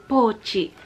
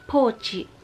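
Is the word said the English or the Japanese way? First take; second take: Japanese; Japanese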